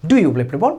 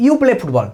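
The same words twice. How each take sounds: First: "do you play football" as a question, rising at the end; question tune. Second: Said in the usual way. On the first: Shown as a demonstration. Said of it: "আমি প্রশ্ন করবো কি". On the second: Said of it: "যে স্টেটমেন্টটা থাকছে".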